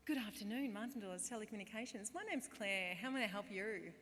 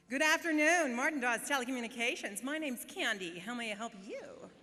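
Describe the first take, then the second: First: Lilting call-centre greeting, slightly lifted; phone greeting voice. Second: Loud, high, over-the-top American receptionist; hammed-up American accent. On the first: Acted. Call-centre worker greeting a customer, lilting phone voice. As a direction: answer the phone in practised sing-song. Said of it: "this is how I'd answer the phone". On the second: Call-centre worker turned Candy greeting customers, exaggerated American accent. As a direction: belt out the greeting in a brash fake American accent. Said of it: "you're kind of talking in this American accent".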